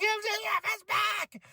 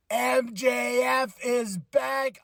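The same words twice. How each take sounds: First: Very high, shrieked retelling of the scream; high-pitched scream. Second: Slow, drawn-out excited call; hyped announcement. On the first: Retold or imitated. Fan reliving his scream at MJF's return, shrieking high. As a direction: shriek it like you jumped out of your seat. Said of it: "I screamed the highest". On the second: Real, not acted. Reviewer announcing MJF's return, drawn-out hype. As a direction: let the name land like big news.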